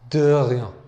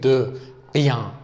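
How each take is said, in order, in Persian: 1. r یک سایشی گلویی نرم و پیوسته است. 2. r یک صدای گلویی سخت و بسته است. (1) "باید بگیم غ غ غ تایی گلوی تر" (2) "دقت کنید که ق نیستش، نمیگیم"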